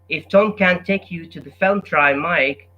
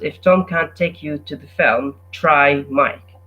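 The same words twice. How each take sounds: First: It runs on without a pause after film. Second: There is a clear pause after film. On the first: "instead of saying" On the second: "you give it a pause and you stop at the word film"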